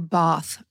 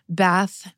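First: It is said in a British accent. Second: It is said in an American accent.

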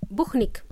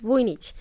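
First: The name is said as Spanish speakers say it. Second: The name is said with its original pronunciation. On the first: The speaker calls it wrong. "my Spanish friends, they pronounce my name as Buchnik" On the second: The speaker calls it right. "So it's none of those. It's Vujnic"

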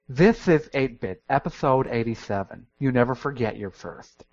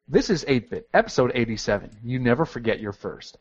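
First: It is said with a lisp. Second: It is said without a lisp.

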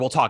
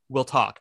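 First: It is said in a dismissive, brushing-off tone. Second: It is said in a sincere, earnest tone. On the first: The mother is not really accepting and wants to leave. "it's more like, whatever" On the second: The mother is taking a real step toward acceptance. "it's a step and it's brave"

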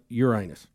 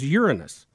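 First: It uses the everyday common pronunciation of the name. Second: It uses the rarer academic pronunciation of the name. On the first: "the more common pronunciation of Uranus" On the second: "the correct way to say it is Uranus"

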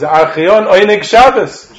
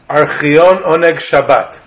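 First: The last word ends with an s sound. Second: The last word ends with a t sound. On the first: The speaker calls it right. "It's Archion Oneg Shabbos. That's how they called it" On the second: This is how it is commonly said in Israel today. The speaker calls it wrong. "they call it Archion Oneg Shabbat"

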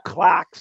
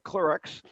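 First: It is said with a British pronunciation. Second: It is said with an American pronunciation. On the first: "You have clerks" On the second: "instead of clerks"

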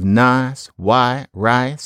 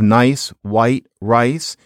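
First: The vowels are a flat 'ah'. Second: The vowels glide like 'eye'. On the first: "one classic trait of Southern American is to change I into ah" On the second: "instead of"

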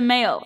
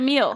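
First: The vowel is an 'ay' sound. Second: The vowel is a long 'ee' sound. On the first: The speaker calls it right. "You don't get the mail" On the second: The speaker calls it wrong. "You get the meal"

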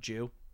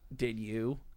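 First: The words merge into one syllable, 'jew'. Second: Both words are said fully and separately.

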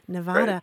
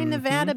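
First: The middle vowel is a broad 'ah' sound. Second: The middle vowel is a short 'a' sound. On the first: The speaker calls it wrong. "I pronounced it like your friends in North Carolina" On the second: The speaker calls it right. "very insistent that it's a short A"

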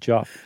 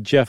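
First: The name has an 'aw' vowel. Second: The name has an 'eh' vowel. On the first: This is the speaker's own habitual reading. "but I always pronounce it Joff" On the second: This is how the man himself says it. "I'm sure he goes by Jeff"

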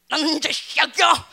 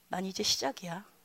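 First: It is said shakily, trembling with fear. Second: It is said calmly, smiling and confident.

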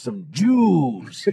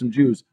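First: The first sound is hit hard and the word drawn out. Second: The word is said plainly at normal speed. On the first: It implies a contemptuous attitude toward the group. The speaker calls it wrong. "really hit that J with a lot of conviction and take a lot of time filling out the rest of the letters" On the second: It is a neutral, harmless description. The speaker calls it right. "no harm, no foul"

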